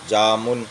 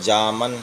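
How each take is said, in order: First: The second vowel sounds like a short u. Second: The second vowel sounds like a short a.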